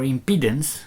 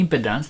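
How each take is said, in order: First: "impedance" with stressed long-ee middle syllable; alternative pronunciation. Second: "impedance" with short, unstressed middle syllable; habitual pronunciation. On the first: Presenter offering another reading, "impedance" said im-PEE-dunce. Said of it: "I think it's impedance". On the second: Presenter naming the plotted measurement, "impedance" said IM-puh-dunce. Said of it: "if it's not the correct pronunciation". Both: Shown as a demonstration.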